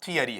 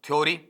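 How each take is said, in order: First: Three syllables with 'ya' in the middle. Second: The first syllable is a glided 'thyo'. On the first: The speaker calls it right. "जो real sound मेरे पास में आता है" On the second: The speaker calls it wrong. "नहीं sir हम तो ये पढ़ते हैं"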